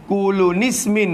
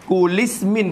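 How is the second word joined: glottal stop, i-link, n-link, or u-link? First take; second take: n-link; i-link. First: An added n sound joins the two words together. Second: The u is dropped and kul joins ismin by i. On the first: "Kulu nismin pun tak kena" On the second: "Kulismin pun tak kena"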